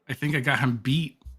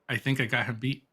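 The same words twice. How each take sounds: First: It is said louder than before. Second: It is said at normal, quieter volume.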